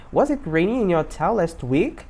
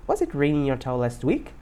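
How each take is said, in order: First: Slow, measured question rising at the end; slow model sentence. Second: Said in the usual way. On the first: Shown as a demonstration. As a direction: say it slowly for learners to copy. Teacher models slowly, then faster. (pergunta modelo, bem devagar)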